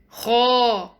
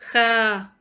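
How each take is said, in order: First: The letter is pronounced heavy, tongue back raised. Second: The letter is pronounced light, tongue back lowered. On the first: The speaker calls it right. "They must be pronounced heavy" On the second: The speaker calls it wrong. "It's not"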